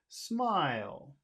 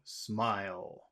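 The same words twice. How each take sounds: First: It starts high and falls, sounding happy. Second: It is said low and flat, sounding serious. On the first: The speaker is being happy or friendly. "if you wanted to sound happy or friendly, ... You could start high and then fall" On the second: The speaker is being serious or formal. "if you want to sound serious, you go low"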